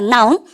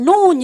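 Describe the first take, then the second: First: The vowel sounds like the 'ow' in 'now'. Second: The vowel sounds like the 'o' in 'no'. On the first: The speaker calls it right. "여러분들 나운이라 그러고" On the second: The speaker calls it wrong. "이걸 노운 이런 거 있죠"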